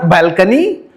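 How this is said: The pitch rises on the word.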